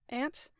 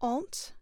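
First: It is said in a non-British accent. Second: It is said in a British accent.

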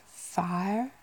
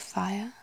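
First: It is said in a Southern US accent. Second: It is said with two syllables, usual accent. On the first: "more like the kind of southern, like US accents" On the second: "how I would normally pronounce it, which is kind of 2 syllables"

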